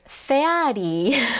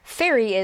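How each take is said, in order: First: It is said with Japanese katakana vowels. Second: It is said with English vowels.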